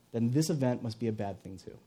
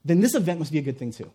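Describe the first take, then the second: First: Low, subdued reasoning; downcast conclusion. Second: Brisk, confident reasoning; hopeful conclusion. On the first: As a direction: conclude it softly, losing hope. Fearful reasoning, contrasted with hopeful. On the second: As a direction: conclude it with quick assurance. Hopeful reasoning, contrasted with fearful. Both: Acted.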